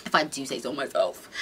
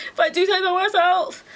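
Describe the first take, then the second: First: Said in the usual way. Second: Posh mock voice. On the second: Repeats line in another voice.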